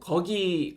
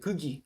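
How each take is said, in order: First: The first vowel is an open 'eo' sound. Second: The first vowel is an unrounded 'eu' sound. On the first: The speaker calls it right. "거기를 가야죠" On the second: The speaker calls it wrong. "그기 그기라고 말씀하시거나 이런 오류가"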